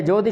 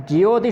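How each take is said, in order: First: ज्योति flattened to जोति; the wrong ज्योति, no य glide; wrong pronunciation. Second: ज्योति with a clear ज्यो glide; ज्योति said with the य heard; ज्योति, ज्यो not जो; correct pronunciation. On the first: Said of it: "ज्योति शब्द नहीं है". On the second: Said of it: "ज्योति शब्द है". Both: Shown as a demonstration.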